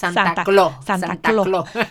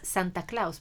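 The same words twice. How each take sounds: First: The name has a Dominican-style pronunciation. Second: The name has a standard pronunciation. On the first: The speaker calls it wrong. "En dominicano nosotros decimos Santa Claus" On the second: The speaker calls it right. "Pero no es así, es Santa Claus"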